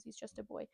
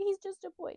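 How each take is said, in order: First: Said in the usual way. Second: High, pleading voice; Makino. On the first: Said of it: "I think the mayor says". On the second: Retold or imitated. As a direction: plead for the child in a raised pitch. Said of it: "And Makino's like".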